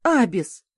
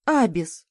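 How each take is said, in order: First: A sharp, louder warning call of the name «Абис»; sharp interrupting call. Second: Weary, subdued calling of «Абис»; «Абис» spoken tiredly, without the sharp edge; tired sigh of a name. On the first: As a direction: cut him off with his name, louder. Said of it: "прервала восторженный вопль парнишки". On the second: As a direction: say his name, drained after a long day. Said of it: "устало произнесла я". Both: A narrator's reading.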